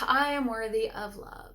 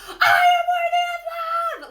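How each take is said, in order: First: It is sighed out quietly with low energy. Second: It is screamed loudly with high energy.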